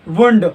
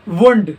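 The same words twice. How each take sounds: The two takes are said the same way.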